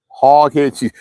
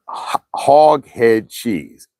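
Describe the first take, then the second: First: Said in the usual way. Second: Slow, stretched-out hog head cheese; drawn out. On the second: Shown as a demonstration. Savouring the dish's name.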